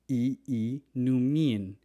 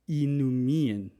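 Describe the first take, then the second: First: The opening is said as two separate vowels. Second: The opening is said as a single vowel. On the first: The speaker calls it right. "You have to pronounce both vowels separately" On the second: The speaker calls it wrong. "never pronounced as just one I like inumin"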